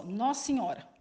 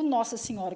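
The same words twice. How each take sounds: First: Nossa Senhora run together as "nossiora"; merged Nossa Senhora. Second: "Nossa Senhora" with every syllable said; full Nossa Senhora. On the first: Teacher showing students the merged "Nossa Senhora". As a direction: blend "Nossa Senhora" into one word. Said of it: "se torna uma só". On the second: Teacher contrasting for students the full "Nossa Senhora". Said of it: "então fica Nossa Senhora". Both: Shown as a demonstration.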